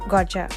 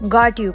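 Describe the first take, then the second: First: The two words blend into one with 'ch'. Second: The two words are said separately and fully.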